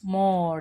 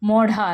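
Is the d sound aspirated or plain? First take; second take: plain; aspirated. First: The d sound is plain, without aspiration. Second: The d sound is aspirated. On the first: The speaker calls it right. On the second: The speaker calls it wrong.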